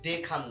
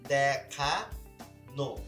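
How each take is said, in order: First: The word ends in a bare 'an' sound. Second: The word ends in an 'ano' sound. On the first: The speaker calls it wrong. "দেখান না" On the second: The speaker calls it right.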